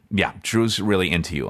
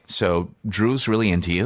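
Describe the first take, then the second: First: "Drew's really into you" falling at the end; confirming tune. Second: "Drew's really into you" rising at the end; questioning tune. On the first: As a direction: state "into you" as settled fact. Retold PA confirms it. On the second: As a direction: float "into you" upward like a question. Retold PA's opening approach. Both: Retold or imitated.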